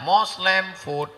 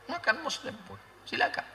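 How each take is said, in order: First: Said in the usual way. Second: Much softer, almost under the breath; soft aside. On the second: Shown as a demonstration. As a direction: drop the voice to a hush. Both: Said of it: "Dia kan ada dua tenda".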